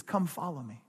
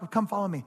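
First: Softer, lower, gentle invitation; personal invitation. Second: Offhand call to the whole crowd; generic group call. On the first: Preacher voices Jesus calling each sheep, gently personal. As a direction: invite one person by name, quietly. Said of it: "It's personal". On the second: Preacher mimics a call Jesus wouldn't make, offhand. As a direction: toss it out to everybody at once. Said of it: "Jesus doesn't just say". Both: Acted.

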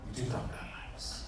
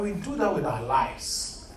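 First: Hushed, almost unvoiced echo; whispered repeat. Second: Said in the usual way. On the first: Shown as a demonstration. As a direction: drop to a breathy whisper on the last repeat. Third repeat, nearly whispered.

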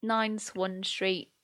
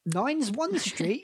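First: Slow, careful reading of an unsure address. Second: "Nine's One Street" echoed slow and high, as if heard wrong; mishearing echo. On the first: Real, not acted. Reading an unfamiliar Scottish address aloud, slow and careful. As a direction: spell it out slowly, unsure of the name. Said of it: "I don't know how to pronounce this". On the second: Retold or imitated. Friend echoes the address back as misheard, puzzled and rising.

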